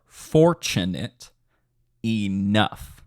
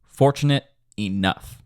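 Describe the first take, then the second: First: Very slow, syllable-by-syllable demo with a pause between words; slower. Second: "Fortunate enough" stressed FOR and NUFF; natural stress shown. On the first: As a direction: draw out each syllable so the stresses show. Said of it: "say that a little bit slower". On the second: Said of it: "Literally think about the way I'm saying that". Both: Shown as a demonstration.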